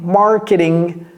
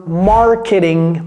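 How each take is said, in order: Both takes have the same delivery.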